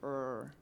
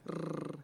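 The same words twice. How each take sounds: First: The R is a smooth sound without rolling. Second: The R is rolled at the tongue tip. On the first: "In English, you don't really, the R is something like R" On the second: "in Flemish, you pronounce the R up front with your tongue"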